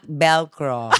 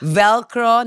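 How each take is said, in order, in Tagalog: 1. Nagsisimula ang salita sa tunog na B. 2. Nagsisimula ang salita sa tunog na V.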